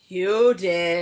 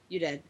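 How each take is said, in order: First: It is said louder. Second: It is said at normal, quieter volume.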